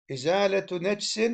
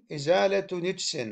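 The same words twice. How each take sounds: First: نجس said as nejs with open a on the nun; nun with fatha. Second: نجس said as nijs with i on the nun; nun with kasra. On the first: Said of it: "بفتح النون". (نجس بفتح النون) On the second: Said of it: "مع كسر". (نجس بكسر النون) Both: Shown as a demonstration.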